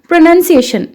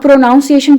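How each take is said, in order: First: The second syllable sounds like 'nun'. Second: The second syllable sounds like 'nounce'. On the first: The speaker calls it right. "This is प्रोनाउंसिएशन" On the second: The speaker calls it wrong. "अब प्रोनाउंसिएशन word गलत है"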